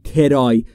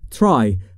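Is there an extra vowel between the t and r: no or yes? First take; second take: yes; no. First: An extra vowel separates the t and r. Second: The t and r are joined without a vowel. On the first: The speaker calls it wrong. "نگفتم ترای" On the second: The speaker calls it right. "بین تی و آر صدایی وجود نداره، پس میگیم try"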